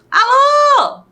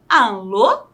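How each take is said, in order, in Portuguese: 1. É dito com uma entonação exclamativa. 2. É dito com uma entonação interrogativa. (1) "seria exclamativo" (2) "Mas estou perguntando quem está na linha"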